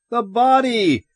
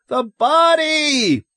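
First: High, urgent cry; raised, alarmed exclamation; shouted. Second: Very high, drawn-out scream; loud, desperate shriek. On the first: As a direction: shout it to make them see. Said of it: "Ed shouted". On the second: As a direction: scream it slowly, stretching the word. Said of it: "Lois screamed". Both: A narrator's reading.

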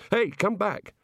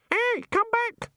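First: Higher, urgent call. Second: Very high, slow parrot squawk; screaming birds. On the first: Man calls after water sinking away, raised higher voice. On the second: Birds in bushes echo the man, screaming squawk. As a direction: screech it like a mimicking bird. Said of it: "screamed the birds in the bushes". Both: A narrator's reading.

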